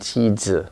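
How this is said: The first sound is the Korean-style sound. "compared to the Korean cheese"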